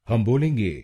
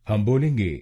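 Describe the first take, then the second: The two takes are said the same way.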